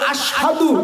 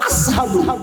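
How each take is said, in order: First: The middle consonant is a 'sh' sound. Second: The middle consonant is an 's' sound. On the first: "আমরা বলবো আশহাদু" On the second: "শিনটা বেলাল উচ্চারণ করতে পারতো না, বলতো আসহাদু"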